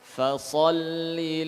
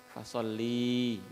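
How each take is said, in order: First: The vowel after the l is short. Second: The vowel after the l is drawn out long. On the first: A command addressed to a man. The speaker calls it right. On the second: A command addressed to a woman. The speaker calls it wrong.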